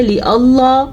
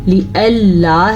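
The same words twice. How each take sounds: First: لِأَللَّا with a heavy dark l, like "Allah"; wrong thick lam. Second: لِأَلَّا with a light, thin double l; thin lam. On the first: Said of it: "بعض لوگ اس کو پڑھتے ہیں". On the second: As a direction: say "li-alla" with a bright front ل in لِأَلَّا. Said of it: "ہے یہ". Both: Shown as a demonstration.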